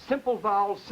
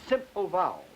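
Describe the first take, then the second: Both takes have the same delivery.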